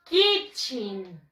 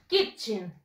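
First: Kitchen, short "kit" plus "chen"; slow, clear Kitchen for echo; model pronunciation. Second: Kitchen with the i said like a Spanish I; model pronunciation. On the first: Teacher modelling Kitchen for the students, clear. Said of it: "Repeat after me". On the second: Teacher stressing the I in Kitchen for students. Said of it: "como si fuera la I". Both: Shown as a demonstration.

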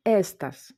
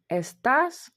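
First: "естас" stressed on the first syllable, ES-tas; wrong first-syllable stress. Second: "естас" stressed on the end, es-TAS; stress on last syllable. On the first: Teacher showing how the rule would read it, first-syllable stress. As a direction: hit the first syllable of "естас", let the last fall away. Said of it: "Мали б читати". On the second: Teacher showing how the word really sounds, last syllable stressed. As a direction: lift the final syllable of "естас". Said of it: "так як ми чуємо". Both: Shown as a demonstration.

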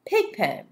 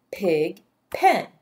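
First: Said in the usual way. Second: "Pig pen" with a clear gap between syllables; split into syllables. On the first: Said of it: "do this first one together". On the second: Shown as a demonstration. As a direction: pound out "Pig" and "pen" as two separate beats. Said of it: "Let's pound".

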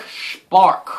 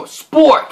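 First: "Spark" with an ah vowel; mispronounced spork. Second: "Spork" with a clear or sound, higher; corrected pronunciation. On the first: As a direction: say "Spark", slipping from or to ar. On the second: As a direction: stress "Spork" as a correction, or vowel. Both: Real, not acted. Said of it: "No, Spork".

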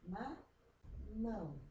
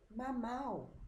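First: "mamão." very slowly, the last syllable a long nasal "ão". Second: "mamau." ending open, no nasal, a bit higher; teacher shows the wrong "mamau."; without tilde. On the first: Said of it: "Então, fica". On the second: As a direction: read "mamau." exactly as the letters say. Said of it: "E aqui". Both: Shown as a demonstration.

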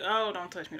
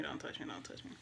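First: Slightly raised, pushing him off; warding off comfort; pleading don't touch me. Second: Hushed, broken whisper, much softer; whispered don't touch me. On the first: Grieving woman to boyfriend holding her, a mild raised plea. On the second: Grieving woman to boyfriend consoling her, whispered refusal. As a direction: repeat it fading to breath. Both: Retold or imitated.

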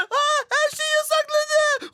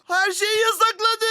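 First: Sudden alarmed high voice; shocked realization. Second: Said in the usual way. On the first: Real, not acted. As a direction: realize it in panic. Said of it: "ben ne yapacağım?". (şaşkın panik)

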